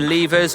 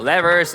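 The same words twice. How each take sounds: First: It is said with a British pronunciation. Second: It is said with an American pronunciation. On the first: "if you're U K" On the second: "if you're U S"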